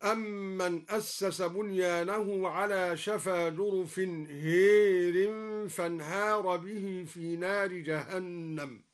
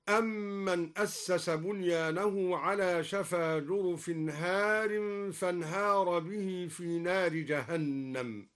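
First: هار said as hēr, with imala. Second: Said in the usual way. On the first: Shown as a demonstration. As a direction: bend the alif of هار to e, hērin. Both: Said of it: "أمال الدوري ألف هار هكذا".

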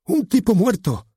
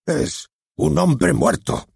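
First: Much higher, louder and slow, barked like a dog; barked line. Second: Much higher and very slow, drawn-out and solemn; dramatic. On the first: Acted. The nervous actor announcing the death, barked far too loud. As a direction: puff up the chest and bark it. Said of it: "sacó pecho y voceó". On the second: Shown as a demonstration. The director showing how to announce a death, slow and dramatic. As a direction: make the audience shiver, slowly. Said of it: "Sea dramático".

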